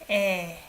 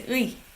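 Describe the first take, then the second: First: The vowel is pronounced as a plain 'e'. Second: The vowel is pronounced as a glide 'ui'. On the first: The speaker calls it right. "I pronounce it as 에" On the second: The speaker calls it wrong. "I don't pronounce it as 의"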